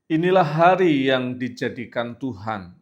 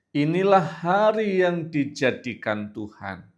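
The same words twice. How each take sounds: First: It is read at a normal, quicker pace. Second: It is read at a noticeably slower pace.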